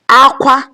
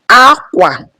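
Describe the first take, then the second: First: Both syllables are on a high tone. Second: The first syllable is high, the second low. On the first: It means cry. "cry, high, high" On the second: It means cloth. "which is high, low"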